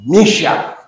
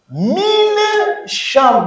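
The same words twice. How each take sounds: First: "Misha" run together as one word, N swallowed; "Misha" compact, falling at the end; contracted form. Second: "Mine sham" as two separate words, N fully sounded; "Mine sham" slowly pulled apart, high on "Mine"; uncontracted form. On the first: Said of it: "Mine sham devient quoi?". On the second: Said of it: "comme on l'a contracté". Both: Shown as a demonstration.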